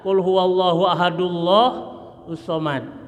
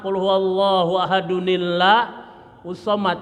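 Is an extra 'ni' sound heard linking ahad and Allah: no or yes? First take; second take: no; yes. First: Ahad runs straight into Allah without 'ni'. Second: An added 'ni' sound links ahad to Allah. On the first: The speaker calls it wrong. "jangan dibaca ... nggak boleh ya" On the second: The speaker calls it right. "yang satu jadi nun kecil, disebut nun wikoyah"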